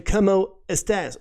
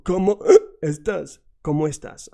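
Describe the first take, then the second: First: ¿Cómo estás? in a mock gringo accent, cómo as kamoh, estás flat and slow. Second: ¿Cómo estás? with cómo flowing into estás as one phrase; native flow. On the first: Teacher mocking how a gringo greets. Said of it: "sound like a gringo". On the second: Shown as a demonstration. Teacher showing the natural linked greeting. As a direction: make it flow like a native speaker. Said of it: "make it flow".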